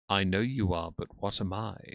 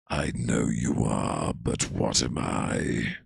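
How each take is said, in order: First: It is said at normal volume. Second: It is said loudly, almost shouted.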